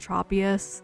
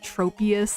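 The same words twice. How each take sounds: First: The first syllable sounds like the start of tropical. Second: The first syllable sounds like the start of troposphere. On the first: "like tropical Tropius" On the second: "like the troposphere"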